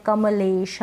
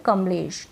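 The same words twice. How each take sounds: First: कमलेश pulled apart as ka-ma-leesh, vowel sounded after म; drawn-out म. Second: Said in the usual way. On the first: Shown as a demonstration. Teacher showing learners the wrong way, कमलेश drawn out as ka-ma-lesh. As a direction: stretch कमलेश slowly, giving म its full "a". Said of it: "इस नाम को ऐसे नहीं बोल रहे हैं". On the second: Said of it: "हम बोल रहे हैं".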